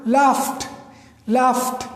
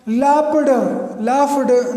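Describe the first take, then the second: First: लाफ्ट as one syllable, "laft"; no d in लाफ्ट, just a soft "ft"; soft T ending. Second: लाफ्ड stretched to two syllables, "laf-ud"; wrong D ending. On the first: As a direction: finish लाफ्ट lightly on t. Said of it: "very soft". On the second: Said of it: "नहीं होगा". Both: Shown as a demonstration.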